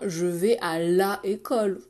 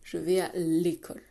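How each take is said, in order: First: The article keeps its full vowel before école. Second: The article's vowel is dropped before école. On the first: The speaker calls it wrong. "on ne dit pas" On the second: The speaker calls it right. "on dit"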